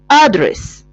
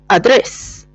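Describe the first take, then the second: First: The stress is on the first syllable. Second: The stress is on the second syllable. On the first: "In American, it's different" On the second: "The stress in the is in the second syllable"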